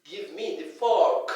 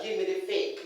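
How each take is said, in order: First: "fork" with an open "aw", slowly; correct pronunciation. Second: Fork turned into "fake"; mispronunciation. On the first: Teacher models what to tell the child, correct pronunciation. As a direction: draw out the vowel in "fork". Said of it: "It's pronounced as fork". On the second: Teacher quotes what not to tell the child, mispronunciation. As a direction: say "fake" with an ay vowel. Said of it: "Don't tell the child". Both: Shown as a demonstration.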